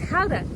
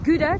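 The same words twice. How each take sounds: First: It is said with a Dutch pronunciation. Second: It is said with an English pronunciation. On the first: This is how locals say it. The speaker calls it right. "it's Gouda" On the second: This is how English speakers say it. The speaker calls it wrong. "which is Gouda to the English. We don't pronounce it like that"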